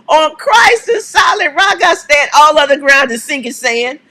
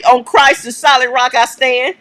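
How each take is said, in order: First: Fired-up proclamation. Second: Said in the usual way. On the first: Acted. Host shouting the hymn line to viewers, fired up. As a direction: belt "On Christ" like a church cry.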